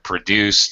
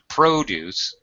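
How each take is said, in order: First: The stress is on the second syllable. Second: The stress is on the first syllable. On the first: It means to make something, a verb. "the verb produce as a verb" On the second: It names farm foods, a noun. "first syllable stress because it's a noun"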